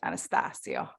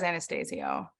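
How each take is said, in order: First: The name is said with Italian-sounding vowels. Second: The name is said with English-sounding vowels. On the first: This is the form his heritage would prefer. "You would make it more Italian" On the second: This is how the name's owner says it. "he says [name]"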